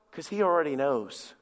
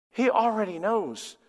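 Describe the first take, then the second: First: Said in the usual way. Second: "He already knows" slow and deliberate; emphatic repeat. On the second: Real, not acted. Preacher on confessing to God, emphatic slow "He already knows". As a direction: lift and stretch "He already knows".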